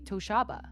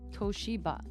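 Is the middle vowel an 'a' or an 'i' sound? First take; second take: a; i. First: The middle syllable has an 'a' vowel. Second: The middle syllable has an 'i' vowel. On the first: The speaker calls it wrong. "if that was the case, it would be Toshaba, but there's no A" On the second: The speaker calls it right. "just straight up in Romaji"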